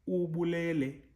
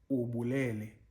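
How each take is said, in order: First: The first syllable is on a high pitch. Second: The first syllable is on a low pitch. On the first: "the u, which is uh, in high pitch" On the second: "the first um, U ... is in a low uh, pitch"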